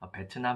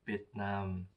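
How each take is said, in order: First: It is said with a clear 't' sound: be-teu-nam. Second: It is said without a 't' sound: bi-en-nam. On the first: This is the form used in Korea. "한국에서 쓰는 베트남은 일본식 발음이고" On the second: This is how local people say it. "현지인분들은 비엔남이라고 발음하십니다"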